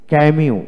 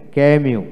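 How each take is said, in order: Both takes have the same delivery.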